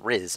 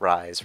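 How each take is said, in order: First: The vowel is short, rhyming with fizz. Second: The vowel is long, rhyming with rise. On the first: The speaker calls it right. "it's pronounced Riz" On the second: The speaker calls it wrong. "not Rise"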